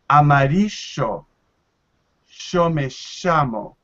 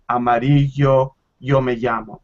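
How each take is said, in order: First: The double L sounds like English sh. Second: The double L sounds like English y.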